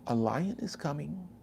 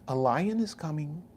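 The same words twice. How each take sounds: First: It is said in a calm, polite tone. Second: It is said in a calm, polite tone.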